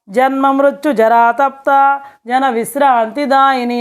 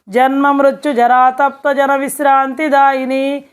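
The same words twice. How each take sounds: First: It is read with breaks between words. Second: It is read as one continuous phrase.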